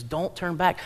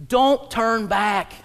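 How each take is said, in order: First: Said in the usual way. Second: Slow, punched "Don't turn back."; emphatic warning. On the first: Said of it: "The Bible encourages us". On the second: Acted. Preacher warning the congregation, slow and emphatic. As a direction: lean into "Don't" slowly. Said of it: "The Bible is screaming in our face".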